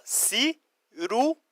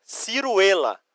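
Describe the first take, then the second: First: "ciruela" slowly split si-ru-e-la; syllable by syllable. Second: Said in the usual way. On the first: Shown as a demonstration. Teacher shows students Spanish for plum, slowly syllabified. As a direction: break "ciruela" into slow separate syllables. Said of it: "Ó". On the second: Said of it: "Ó, ciruela".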